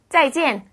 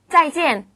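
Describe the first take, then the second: First: Said in the usual way. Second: 짜이지엔 said high and clear as a model; 짜이지엔 carefully pronounced for students to repeat; teacher models 짜이지엔 for the class; model pronunciation. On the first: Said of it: "이라고 인사하시면 됩니다". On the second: Shown as a demonstration. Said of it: "우리 헤어지는 인사 한번 해볼까요?".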